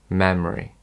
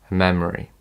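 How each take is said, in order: The two takes are said the same way.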